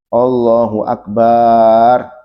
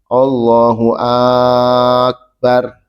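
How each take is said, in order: First: The ba syllable of akbar is drawn out long. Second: The first vowel of akbar is drawn out long. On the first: "baknya nggak boleh dipanjangkan. ... Nggak boleh panjang baknya" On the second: "Jangan dipanjangkan hamzahnya. ... Tak boleh"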